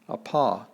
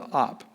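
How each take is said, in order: First: The word ends with its final vowel. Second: The word ends without its final vowel. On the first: "the word apa" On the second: "they just drop it, and it t- turns into op"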